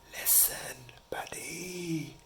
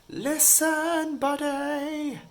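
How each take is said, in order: First: It is whispered softly. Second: It is yelled loudly.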